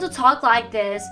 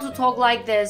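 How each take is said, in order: First: The voice moves up and down with emotion. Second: The voice is flat and monotone, like a robot. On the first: The speaker calls it right. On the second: The speaker calls it wrong. "it sounds so like a robot"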